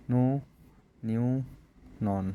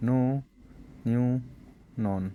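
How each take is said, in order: Both takes have the same delivery.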